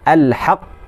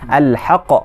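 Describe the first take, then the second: First: The final q is held briefly before release. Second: The final q bounces out with no hold. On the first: "bila ada syaddah sini, dia tahan" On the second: "Kalau qalqalah kubra kita baca macam mana?"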